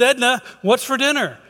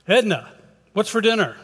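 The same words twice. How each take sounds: First: High-pitched, exasperated call; a little frustrated. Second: Raised, higher call to someone in another room. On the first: Husband right beside wife after getting no answer, frustrated call. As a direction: call out, losing patience. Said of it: "he's getting a little frustrated at this point". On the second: Husband calls to wife from the front door, calling out. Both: Acted.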